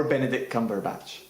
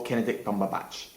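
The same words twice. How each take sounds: First: Said in the usual way. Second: "Benedict Cumberbatch" garbled as KEN-edict PUM-berbatch; garbled name. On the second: Shown as a demonstration. Presenter lists old references, "Benedict Cumberbatch" garbled as Kenedict Pumberbatch.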